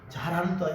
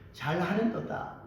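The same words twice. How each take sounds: First: It is said in a sincere, approving tone. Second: It is said in a mocking, sneering tone. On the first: The listener is genuinely praised. The speaker calls it wrong. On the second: The listener is being ridiculed. The speaker calls it right.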